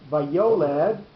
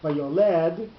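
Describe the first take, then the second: First: The stress falls on the middle syllable. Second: The stress falls on the last syllable. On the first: The speaker calls it right. "the word is pronounced vayoled, so therefore you need a second pashta over the yud" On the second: The speaker calls it wrong. "if it was vayoled, then you would only have one pashta"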